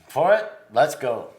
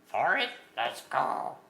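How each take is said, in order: First: It is said in his normal voice. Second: It is said in a Yoda impression.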